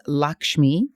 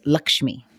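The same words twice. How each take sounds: First: "Lakshmi" said LAHK-shmee; birth-name pronunciation. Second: "Lakshmi" said LUCK-shmee; short uh in the first syllable of "Lakshmi"; alternative pronunciation. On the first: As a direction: open ah in the first syllable of "Lakshmi". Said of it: "my birth name is Lakshmi". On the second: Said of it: "or also pronounced Lakshmi". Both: Shown as a demonstration.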